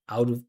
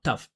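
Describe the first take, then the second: First: The t is a soft, linked flap. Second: The t is a hard, separated stop. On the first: The speaker calls it right. "With that flap T, you hear the vibration" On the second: The speaker calls it wrong. "I'm not saying out, tough"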